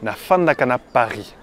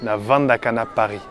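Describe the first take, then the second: First: It is said with an F sound, Kinshasa style. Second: It is said with a V sound, Brazzaville style.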